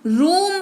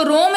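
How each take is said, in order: First: रूम with a long "oo", as in "moon"; रूम modelled as "room", never "roam"; correct "oo" vowel. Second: रोम with a long "oh", like "roam"; रोम rhyming with "home"; wrong "oh" vowel. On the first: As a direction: say रूम firmly with rounded "oo". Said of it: "रूम पढ़ रहे हैं". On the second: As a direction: say रोम as the mistaken reading with "oh". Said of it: "इसको रोम नहीं पढ़ रहे हैं". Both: Shown as a demonstration.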